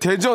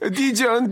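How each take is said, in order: First: The name is said with a plain Korean vowel. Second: The name is said with an English-style vowel. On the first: The speaker calls it right. "그냥 대전 하면 되는 거거든요" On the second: The speaker calls it wrong. "이렇게"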